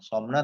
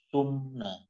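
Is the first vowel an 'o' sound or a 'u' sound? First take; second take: o sound; u sound. First: The first vowel sounds like 'o'. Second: The first vowel sounds like 'u'. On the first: The speaker calls it wrong. "Bukan somna" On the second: The speaker calls it right. "tapi sumna"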